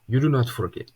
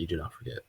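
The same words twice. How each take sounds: First: It is said in an imitated Russian accent. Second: It is said in the speaker's normal accent. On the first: A strict teacher is being quoted. "It's literally what he sounded like" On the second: The speaker is giving the advice. "I'm not gonna go crazy Russian math with it"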